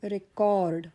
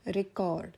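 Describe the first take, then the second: First: The stress is on the second syllable. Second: The stress is on the first syllable. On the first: It is used as a verb. "मी उच्चाराचा आघात सी O R D कॉर्डवर घेतला" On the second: It is used as a noun. "first syllable is stressed"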